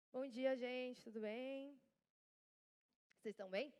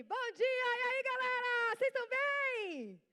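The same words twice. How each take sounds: First: Weary good morning, little energy; acted exhaustion. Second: High, shouted hype greeting; loud, drawn-out, high-energy good morning; rousing greeting. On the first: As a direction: greet the room as if worn out. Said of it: "tô exausta, gravei ontem". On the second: Acted. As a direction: fire up the whole crowd at full volume. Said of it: "não dá vontade de até levantar?".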